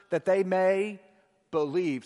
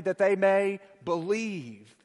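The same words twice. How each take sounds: First: Said in the usual way. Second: Slow, drawn out, every word leaned on; slow unison recital. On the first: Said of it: "what, church?". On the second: Shown as a demonstration. Preacher leading the congregation in unison, slowly. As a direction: lead the church to say it together, slowly. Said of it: "Say it with me".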